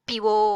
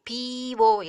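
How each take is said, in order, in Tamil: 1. முதல் உயிரெழுத்து குறிலாக ஒலிக்கிறது. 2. முதல் உயிரெழுத்து நீளமாக ஒலிக்கிறது. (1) "அந்த பீங்கிறது குறிலாயிரும் ஓ வரும்போது" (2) "பீவோ இல்லை"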